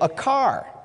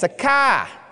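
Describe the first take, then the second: First: The r in car is pronounced. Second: The r in car is dropped, Maine-style.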